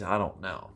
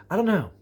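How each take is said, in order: First: Said in the usual way. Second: I don't know flung out higher and louder; mock exasperated. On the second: Real, not acted. Shrugging off the gear-laden hikers, loud and exasperated. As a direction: toss it off like you can't be bothered.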